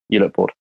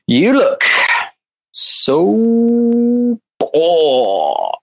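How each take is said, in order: First: It is said in a flat, boring way. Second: It is said in an exaggerated, upbeat way.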